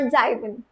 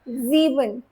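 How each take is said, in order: First: The first vowel is not an 'ee' sound. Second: The first vowel is a long 'ee' sound. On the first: The speaker calls it wrong. "not Zaiben" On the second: The speaker calls it right. "That English E is followed over here"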